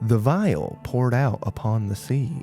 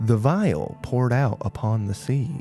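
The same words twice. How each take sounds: First: It is said in a Southern American accent. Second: The same.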